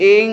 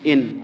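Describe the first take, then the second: First: The final n is hidden as a nasal ng. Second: The final n is pronounced fully and clearly. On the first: "এটাকে যদি আমি ইখফাতে রূপান্তরিত করতে চাই" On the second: "স্বাভাবিকভাবে রস্বই দন্ত ন দিলে উচ্চারণ কি হয়?"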